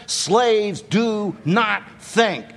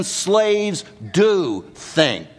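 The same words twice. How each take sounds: First: "Slaves do not think" spaced out slowly, weight on "not"; slow emphatic denial. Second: "do" stretched and stressed, then "think"; emphatic affirmation. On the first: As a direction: set down each word slowly, landing on "not". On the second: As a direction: lean long and slow on "do". Answers the Romans' saying. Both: Shown as a demonstration.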